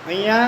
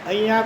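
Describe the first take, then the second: Both takes have the same delivery.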